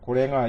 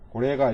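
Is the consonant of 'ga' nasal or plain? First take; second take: nasal; plain. First: The 'ga' is said with a nasal consonant. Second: The 'ga' is said with a plain hard consonant. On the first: "원래 가인데 이제 비음이 된다고 그랬죠" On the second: "고래가 이렇게 읽으셔도 돼요"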